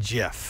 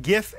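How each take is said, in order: First: "gif" with a soft g, like jiff. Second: "gif" with a hard g as in gift. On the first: Host comparing rival pronunciations, soft-g gif. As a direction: say "gif" starting with a j sound. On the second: Host comparing rival pronunciations, hard-g gif. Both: Shown as a demonstration. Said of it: "fighting over the pronunciation".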